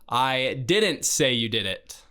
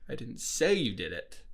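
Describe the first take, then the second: First: The stress is on the word didn't. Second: The stress is on the word say.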